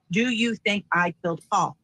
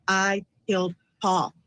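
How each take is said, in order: First: "Do you think I killed Paul" quoted as a whole question. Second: "I killed Paul" slow and falling, as a statement; extracted statement. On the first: Retold or imitated. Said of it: "He then says". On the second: Shown as a demonstration. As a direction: state "I killed Paul" word by word, like a bare admission. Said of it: "the statement says what?".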